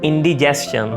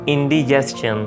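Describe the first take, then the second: Both takes have the same delivery.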